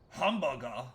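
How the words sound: The word is said in a German-sounding accent. The speaker calls it wrong. "You don't say it in like a German way"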